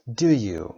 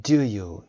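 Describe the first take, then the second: First: "Do you" with a falling tune; falling intonation on "Do you"; falling tag. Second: "Do you" said louder with a falling tune; confirming fall on "Do you"; falling tag. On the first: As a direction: drop the pitch on "Do you" to check facts. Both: Shown as a demonstration. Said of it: "این صدا falling intonation داره".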